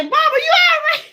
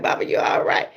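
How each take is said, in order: First: High-pitched mock cry of alarm; worried child. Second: Said in the usual way. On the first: Child checking on stuttering mama, mock alarm. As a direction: call out like an alarmed kid, hammed up.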